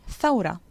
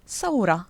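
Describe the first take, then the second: First: The word begins with a 'th' sound. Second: The word begins with an 's' sound. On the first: "which should really be" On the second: "the th becomes a s"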